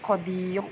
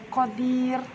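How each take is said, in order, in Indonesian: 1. R-nya diucapkan berat dan tebal. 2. R-nya diucapkan tipis dan ringan. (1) "bukan qadir. Bukan diangkat lidahnya" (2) "Maka dibaca qadir"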